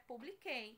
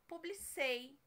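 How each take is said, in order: First: The consonant before the last syllable is a k sound. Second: The consonant before the last syllable is an s sound. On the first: The speaker calls it right. "o certo é publiquei" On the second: The speaker calls it wrong. "se eu colocar o C aqui, vai ficar publicei"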